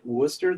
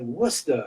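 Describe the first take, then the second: First: Worcester as "WUSS-ter" with a sounded r, rising; tentative r-ful pronunciation. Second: R-less Massachusetts "WUSS-tah" for Worcester, falling; imitated Massachusetts accent. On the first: Retold or imitated. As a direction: try out Worcester questioningly, r at the end. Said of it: "And I'd be like". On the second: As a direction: correct them with a local Massachusetts Worcester, no r. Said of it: "They're like".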